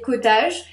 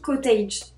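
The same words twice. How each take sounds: First: The word is pronounced the French way. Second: The word is pronounced the English way.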